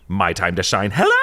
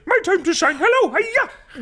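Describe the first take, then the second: First: It is said in his normal voice. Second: It is said in a Miss Piggy voice.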